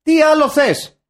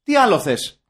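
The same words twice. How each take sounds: First: High, loud exasperated demand; mock outraged shout. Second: Loud rhetorical demand; mildly indignant, pushed-out question; mock exasperation. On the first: Repeating the question to top the rant, mock outraged shout. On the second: Capping the film-length rant, mock exasperated. Acted rant, first of two takes.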